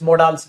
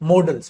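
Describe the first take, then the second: First: It has a long, stressed second vowel 'daals'. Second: It has a short first vowel, like 'model'. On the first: The speaker calls it wrong. "मोडाल्स नहीं" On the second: The speaker calls it right. "मॉडल्स होता है"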